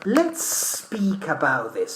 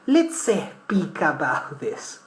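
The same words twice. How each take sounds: First: The s of let's runs into speak. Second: An extra vowel is added before speak. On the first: The speaker calls it right. "you carry the last S and you mix it with the new S" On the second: The speaker calls it wrong. "we don't say"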